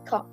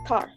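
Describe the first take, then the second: First: The final R sound is dropped. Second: The final R sound is pronounced. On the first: "they just similar like the U K" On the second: "for U S, they just pronounce it pronounce it like car"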